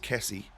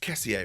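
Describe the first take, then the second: First: The name ends without the extra final syllable. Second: The name ends with an extra final syllable. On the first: The speaker calls it wrong. "Not just Kessie" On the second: The speaker calls it right. "the proper pronunciation is Kessier"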